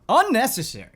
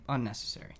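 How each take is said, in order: First: The word is said loudly, with strong emphasis. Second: The word is said flatly, without extra force.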